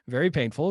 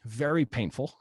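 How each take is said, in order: First: Laughing. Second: Said in the usual way. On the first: Real, not acted. Laughs while repeating it.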